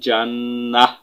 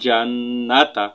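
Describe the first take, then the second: First: The word ends with an h sound. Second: The word ends with a t sound and vowel.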